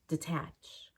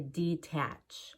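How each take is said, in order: First: The first syllable is quick with a reduced vowel. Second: The first syllable is clear with a long E. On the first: The speaker calls it right. "so we can say detach" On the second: The speaker calls it wrong. "I wouldn't say detach"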